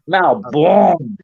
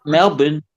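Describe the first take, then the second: First: "Melbourne" as MAL-born, open first vowel and a full "born"; the flavored MAL-born "Melbourne". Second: "Melbourne" clipped to MEL-bn; the tinny local "Melbourne". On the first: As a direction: stretch "Melbourne" into MAL-born, gangster style. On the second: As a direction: say "Melbourne" quick and thin, MEL-bn. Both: Shown as a demonstration. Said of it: "Not Melbourne".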